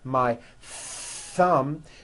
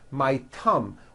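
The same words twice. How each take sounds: First: The word begins with a th sound. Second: The word begins with a t sound. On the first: The speaker calls it right. "notice how my tongue is coming out" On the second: The speaker calls it wrong. "you just substitute another sound, like a T"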